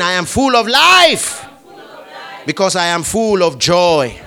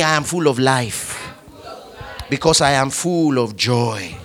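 First: Louder declaration. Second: Said in the usual way. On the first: Shown as a demonstration. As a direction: raise it up and declare it. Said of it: "Say it again". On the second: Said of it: "Say this with me".

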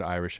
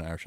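First: Said in the usual way. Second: Mock Irish "Irish", said as "Oirish"; Irish accent. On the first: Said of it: "Other than saying the word Irish". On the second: Shown as a demonstration. Podcast host showing the one word he can do, Irish accent. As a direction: open "Irish" with an Irish "oy". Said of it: "and Irish accent is Irish".

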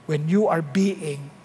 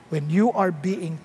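Both takes have the same delivery.

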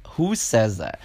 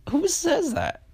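First: Said in the usual way. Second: Squeaky high "Who says that?" with "Who" hit hardest; mock disbelief. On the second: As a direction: squeal the question in comic outrage. Incredulous repeat of her message.

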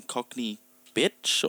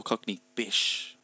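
First: "bitch" ending in a crisp tch; clear final "tch". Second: "bish" ending in sh, no t; soft "sh" ending. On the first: Offering a pronunciation to check, "bitch" with tch. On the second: Offering the other pronunciation, "bish" with sh. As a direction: let "bish" end on a hushing sh. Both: Shown as a demonstration. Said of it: "did I get the pronunciation wrong?".

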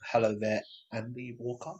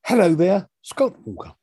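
First: The name dropped to a near murmur; awkward greeting that fades out on the name; odd greeting. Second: Mock odd greeting. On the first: Real, not acted. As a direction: start the greeting normally, then swallow the name much softer. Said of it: "I don't know why I said it like that". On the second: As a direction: playfully copy the strange greeting back. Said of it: "I don't know why you said it like that either".

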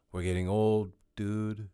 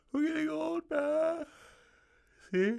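First: Said in the usual way. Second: Much higher, put-on croaky complaint; squeaky high old-man voice. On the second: Repeats phrase in new voice.

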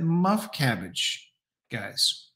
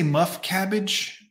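First: Put-on "Muff cabbage" very slow, a light Jersey accent. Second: "Muff cabbage" slow, in a lightly faked Jersey accent. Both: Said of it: "in the Jersey accent".

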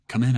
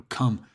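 First: Said in the usual way. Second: Louder, higher call toward the door. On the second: Acted. Roommate calling to whoever knocked, louder call.

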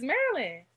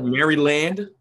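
First: Said in the usual way. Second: Maryland said as Mary-land, full second vowel; spelled-out pronunciation. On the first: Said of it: "Nobody says that, though, but it's". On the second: Shown as a demonstration. Asking what is Maryland as spelled, literal Mary-land pronunciation. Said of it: "You can say that, Maryland".

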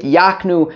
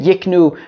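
First: Yaknu with an open a; yak- reading. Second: Yiknu with a short i; yik- reading. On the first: Teacher gives the drasha reading, Yaknu as YAHK-nu. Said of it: "read it Yaknu". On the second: Teacher quotes "don't read it" form, Yiknu as YIK-nu. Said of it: "Don't read it Yiknu". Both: Shown as a demonstration.

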